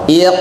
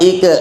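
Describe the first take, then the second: First: The final consonant bounces with an audible release. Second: The final consonant stops flat without a release. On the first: The speaker calls it right. "tirukan saya dulu" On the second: The speaker calls it wrong. "Yang kurang tepat ik gitu ya"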